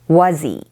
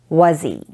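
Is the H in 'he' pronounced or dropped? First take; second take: dropped; dropped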